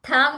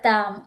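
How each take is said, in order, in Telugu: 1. మొదటి హల్లు మహాప్రాణం, ఊపిరితో. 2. మొదటి హల్లు అల్పప్రాణం, ఊపిరి లేకుండా. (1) "ఇక్కడ మహాప్రాణం చెప్తున్నావు" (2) "కాదు తామ్"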